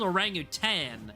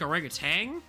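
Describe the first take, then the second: First: The word ends in 'tan' with no g sound. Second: The word ends in 'tang' with a g sound. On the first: This is how the spelling suggests it. "it looks like it's supposed to be an orangutan" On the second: This is how the speaker habitually says it. "I've always said like kind of like orangutan"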